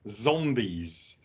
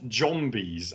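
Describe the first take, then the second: First: It begins with a buzzing z sound. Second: It begins with a j sound. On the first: The speaker calls it right. "with a Z" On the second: The speaker calls it wrong.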